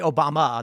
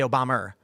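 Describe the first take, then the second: First: The name ends in a plain 'uh' vowel. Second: The name ends in an 'er' sound. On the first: "they don't say uh" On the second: "They say er"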